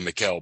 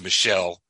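First: The name is given a non-French pronunciation. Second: The name is given a French pronunciation. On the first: The speaker calls it wrong. "I would say Michel" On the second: The speaker calls it right. "but it's Michel"

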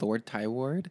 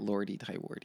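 First: Both words end without an added ee sound. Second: Both words end with an added ee sound. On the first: The speaker calls it right. "I am at Lord Tyward" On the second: The speaker calls it wrong. "Not Lordy Tywardy. Everyone thinks it's like that"

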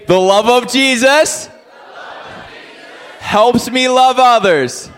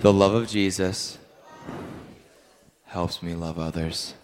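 First: It is said in a lively, excited voice. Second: It is said in a flat, calm monotone.

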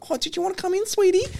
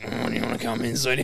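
First: It is said in a sweet, gentle tone. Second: It is said in a heavy, unsweet tone.

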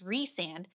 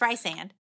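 First: The first syllable sounds like 'reese'. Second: The first syllable sounds like 'rice'. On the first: The speaker calls it wrong. "which is wrong" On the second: The speaker calls it right. "It's rice and"

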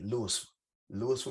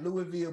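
First: The middle s sound is pronounced. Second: The middle s sound is silent. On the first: This is how locals in Mississippi say it. "but we say it like L-O-U-I-S-F-A" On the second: This is the common general pronunciation. "It's pronounced like Louisville"

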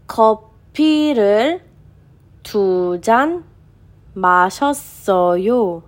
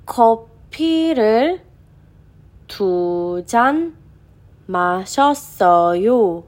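No difference in how they are said.

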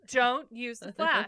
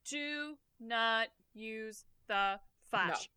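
First: It is said loudly. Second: It is said at normal volume.

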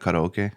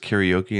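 First: The word has a Japanese-style pronunciation. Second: The word has an anglicized English pronunciation. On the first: This is the original way to say it. The speaker calls it right. "and not karaoke" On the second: This is how most people say it. The speaker calls it wrong. "everyone says karaoke"

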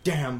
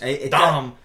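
First: It is said in a plain, ordinary accent. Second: It is said in a put-on French accent.

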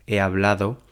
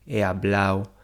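First: The d in the ending is pronounced. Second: The d in the ending is dropped. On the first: The speaker calls it right. "en lugar de" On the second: The speaker calls it wrong.

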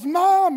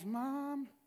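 First: It is said a little louder. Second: It is said at normal volume.

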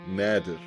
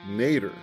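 First: The name is said with an Arabic pronunciation. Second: The name is said with an American pronunciation. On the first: This is the original form of the name. "In Arabic, my name is pronounced Nadir" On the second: This is the form the speaker grew up hearing. "Being born in America, I've always been used to it being pronounced Nader"

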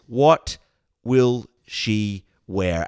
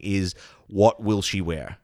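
First: It is asked in a dramatic, heightened way. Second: It is asked in a plain, ordinary way.

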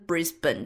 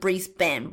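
First: The stress falls on the first syllable. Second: The stress falls on the second syllable. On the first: This is how locals say it. The speaker calls it right. "而不是Brisbane，就是那个重音可能就比较不一样" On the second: This is how Americans might say it. The speaker calls it wrong. "他们就会念成Brisbane"

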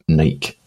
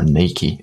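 First: The name is said the non-American way. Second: The name is said the American way.

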